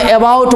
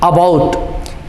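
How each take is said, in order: First: The word begins with an 'ay' vowel. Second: The word begins with an 'uh' vowel. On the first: The speaker calls it wrong. "बहुत लोग अपने बिहार में अबाउट बोलता है" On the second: The speaker calls it right. "अ की तरह ए का उच्चारण होगा"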